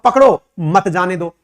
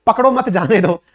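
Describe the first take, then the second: First: Slow, with "पकड़ो" set apart before "मत जाने दो"; pause after पकड़ो. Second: "पकड़ो मत" joined as one unit, then "जाने दो"; phrasing demo. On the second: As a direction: keep मत attached to पकड़ो, meaning don't catch. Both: Shown as a demonstration. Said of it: "दोनों अलग-अलग शब्द हैं".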